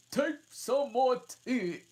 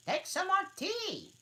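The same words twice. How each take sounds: First: High, loud, slow urging; earnest March Hare. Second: Very high, loud urging; earnest March Hare. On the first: March Hare offering Alice tea, high and loud. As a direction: press the tea on her. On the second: March Hare offering Alice tea, very high. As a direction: insist warmly on tea. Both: Acted. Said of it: "very earnestly".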